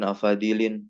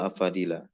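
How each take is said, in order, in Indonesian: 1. Kata ini berakhir dengan bunyi 'in'. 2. Kata ini berakhir dengan bunyi 'a'. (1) "Ada yang masih mengkasrohkan afadil ... Salah itu ya" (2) "Yang betul afadila"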